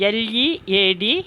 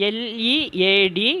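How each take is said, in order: The two takes are said the same way.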